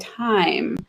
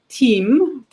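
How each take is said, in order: First: The vowel glides as a diphthong. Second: The vowel is a plain high ee sound. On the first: This is the modern pronunciation. "it turns into a diphthong" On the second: This is the older pronunciation. "your E, that's a very high vowel"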